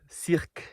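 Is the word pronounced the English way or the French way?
French. The word is pronounced the French way.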